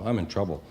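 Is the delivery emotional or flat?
flat. It is said flatly, with little emotion. An adult says it casually. "the word trouble doesn't have as much emotion when you grow up"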